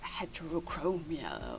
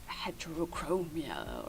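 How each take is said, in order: First: It is pronounced with English sounds. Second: The same.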